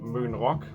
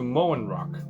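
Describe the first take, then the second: First: The first word has a Danish rounded vowel. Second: The first word sounds like English 'moan'. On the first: It names the Danish island. The speaker calls it right. "a Danish thing" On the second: It suggests moaning rock music. The speaker calls it wrong. "which sounds like someone who only listens to moan rock"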